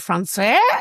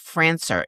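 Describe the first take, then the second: First: The name has a French pronunciation. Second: The name has a plain English pronunciation. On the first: "one of those like French things where it's like really français" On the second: "I've been saying his last name is Francer"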